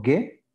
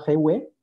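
First: "gue" con g de gato; G dura, U muda. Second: "gue" pronunciado güe, con sonido gw; U sonora. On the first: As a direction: pronunciar "gue" sin sonar la u. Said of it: "se pronuncia en zapoteco". ("gue" como g de gato más e) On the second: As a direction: hacer sonar la u de "gue". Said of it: "la sílaba G U E se pronuncia". ("gue" como si llevara diéresis) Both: Shown as a demonstration.

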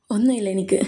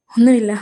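First: Whispered, holding back tears; hushed denial. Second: Said in the usual way. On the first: Acted. Aadi tells Karthi nothing is wrong, hushed. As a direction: barely let it out, softly.

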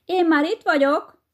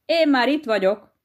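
First: High, loud triumphant call; loud shout. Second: Higher, lightly called demo of the line; mild mock call. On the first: Acted. Hedgehog's wife pops up and yells at the hare, loud. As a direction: shout it across the field. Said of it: "harsányan oda kiabálja neki". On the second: Shown as a demonstration. Hedgehog teaches his wife what to shout, mild mock call. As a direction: show her how to call out, half-voiced. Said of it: "szembe kiabálod vele".

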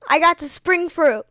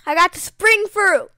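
First: Loud excited announcement. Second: Louder, higher excited shout; ecstatic shout. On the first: Gamer telling viewers about the rare fruit, loud and excited. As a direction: blurt out the good news. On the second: Gamer repeating the news to viewers, a louder, higher shout. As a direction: shout it out in delight. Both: Real, not acted.

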